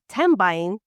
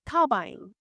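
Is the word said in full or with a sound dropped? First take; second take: full; sound dropped. First: The word is said with every sound kept. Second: The word is said with a sound dropped. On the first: The speaker calls it wrong. "it's not tambaying" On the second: The speaker calls it right. "They they take part of the word off"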